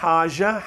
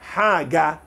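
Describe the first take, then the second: First: The middle consonant is a soft j sound. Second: The middle consonant is a hard g sound. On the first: This is how Lebanese speakers say it. "libanês vai dizer haja" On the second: This is how Egyptian speakers say it. "Egípcio vai dizer isso mesmo, haga"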